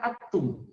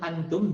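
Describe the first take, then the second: First: The n sound is left out entirely. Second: The n is pronounced clearly and briefly. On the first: "bukan juga seperti yang merah atum" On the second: "seperti jelas izhar namanya antum"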